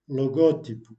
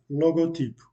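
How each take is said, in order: First: The second syllable is clearly stressed. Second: No syllable is clearly stressed. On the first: The speaker calls it right. "alors que la prononciation correcte est logotype" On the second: The speaker calls it wrong. "c'est comme si euh, il n'accentuait aucune syllabe"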